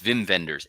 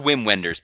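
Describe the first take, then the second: First: The first name begins with a V sound. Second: The first name begins with a W sound. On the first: "but it's Vim Wenders" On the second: "It's it's spelled Wim Wenders"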